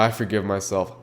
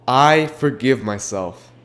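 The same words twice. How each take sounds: First: It is said casually, without real feeling. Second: It is said sincerely, with real feeling. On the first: The speaker does not really mean it. The speaker calls it wrong. "Not, oh yeah" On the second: The speaker truly means it. The speaker calls it right. "say it like you mean it"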